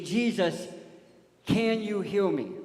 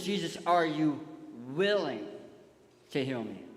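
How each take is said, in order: First: "can" pushed higher and louder, slowly; drawn-out, raised "can", falling to the end; stress on "can". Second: "willing" set apart by pauses; stress on "willing". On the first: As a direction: question the ability by leaning on "can". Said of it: "Notice how the leper didn't say". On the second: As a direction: ask it with weight on "willing". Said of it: "His question is". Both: Acted.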